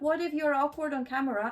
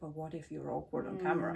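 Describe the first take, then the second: First: It sounds light and playful. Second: It sounds worried and doubtful.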